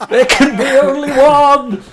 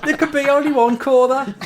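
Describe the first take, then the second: First: High, very loud mock-epic shout; heroic battle cry. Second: Loud, high mock-Brummie Highlander; Brummie accent. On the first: Employee capping his absurd review, triumphant shout. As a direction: roar it out as a triumphant catchphrase. Film catchphrase climax amid laughter. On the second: Friend joking about Brummie Highlanders, mock Brummie cry. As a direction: shout it as a Brummie warrior. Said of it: "if there were Brummie Highlanders".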